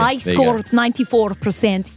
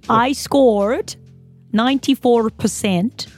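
First: The word percent is in a Russian accent. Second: The word percent is in an Australian accent. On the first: The speaker calls it right. "You need to readjust" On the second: The speaker calls it wrong. "you just said percent in your Australian accent"

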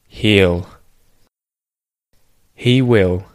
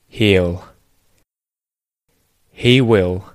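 No difference in how they are said.

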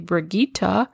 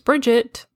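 First: The name is pronounced the German way. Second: The name is pronounced the American way. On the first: "If you're German, you can say Brigitte" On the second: "the American pronunciation is Bridget"

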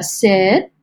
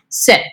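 First: The voice rises at the end. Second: The voice falls at the end. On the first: The speaker is pleading, as if asking a question. "with that vocal inflection going up, you know, it's like pretty please sit, pretty please with a question mark" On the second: The speaker is giving a firm command. "There's a certain level of confidence. There's a, this is not up for debate"

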